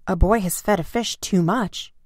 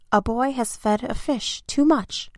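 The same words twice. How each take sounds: First: Mildly emphatic repeat, near usual pitch; firm echo. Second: Higher-pitched, mildly alarmed report; urgent report. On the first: Firemen repeat the policeman's report, firm and ready. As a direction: echo the report back firmly. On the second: Policeman reports the trouble to firemen, urgent and high. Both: A narrator's reading.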